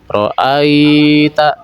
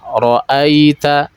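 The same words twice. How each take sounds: First: The 'ai' sound is drawn out long. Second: The 'ai' sound is short and softened. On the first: The speaker calls it wrong. "bukan seperti itu" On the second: The speaker calls it right. "dia dilunakkan saja"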